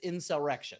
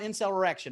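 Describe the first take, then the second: First: It is said to sound like incel erection. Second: It is said as the ordinary word insurrection. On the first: The speaker calls it right. "It's insurrection" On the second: The speaker calls it wrong. "It's not insurrection"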